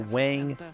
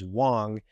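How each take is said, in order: First: The name is said with an anglicized pronunciation. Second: The name is said with a Mandarin-like pronunciation. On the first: The speaker calls it wrong. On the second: The speaker calls it right.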